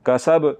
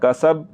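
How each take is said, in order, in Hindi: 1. आख़िरी 'b' एक उछलते झटके के साथ ख़त्म होता है। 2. आख़िरी 'b' बिना झटके के सीधे ख़त्म होता है। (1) "बा को झटके के साथ पढ़ना है, कैसे?" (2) "ये गलत है, ऐसे नहीं पढ़ना"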